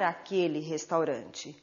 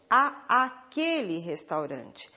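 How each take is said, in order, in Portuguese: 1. Os dois sons de "a" se fundem em um só "a". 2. Dois sons de "a" separados são pronunciados antes de "aquele". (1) "Pronunciamos como se fosse um único a" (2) "Só que não devemos pronunciar dessa maneira"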